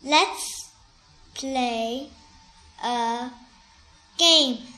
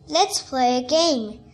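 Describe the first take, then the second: First: It is read slowly. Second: It is read at normal speed.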